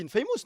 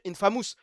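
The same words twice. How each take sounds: First: "Infamous" as "in-fay-mousse"; English-style pronunciation. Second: "Infamous" said "in-fa-mousse"; French "a" in the middle of "Infamous"; French pronunciation. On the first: Streamer defends their usual way, English-style "Infamous". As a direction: put "fay" in the middle of "Infamous". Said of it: "Mais sinon, je dis Infamous". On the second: Streamer reads back a viewer's accusation, French-sounding "Infamous". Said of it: "Tu viens de dire Infamous". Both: Shown as a demonstration.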